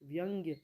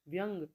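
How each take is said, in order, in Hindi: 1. शब्द 'gya' पर खत्म होता है। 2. शब्द बिना स्वर वाले 'g' पर खत्म होता है।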